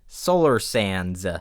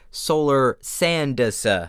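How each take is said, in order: First: The final D is barely heard at all. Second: The final D is clearly and strongly pronounced. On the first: It sounds like a different name. "it sounds like I am saying" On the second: This is the intended name. "I can't emphasize the D without it sounding strange"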